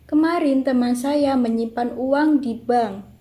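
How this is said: The stress falls on di bank. "keenam mendapat tekanan pada di bank"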